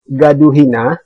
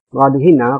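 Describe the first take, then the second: First: The first word begins with a g sound. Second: The first word begins with the Lampung r sound.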